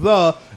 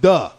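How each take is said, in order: First: The word begins with a soft th sound. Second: The word begins with a hard d sound. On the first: "instead of you saying the" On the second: "it sound like it's saying duh. You know what I'm saying with a D"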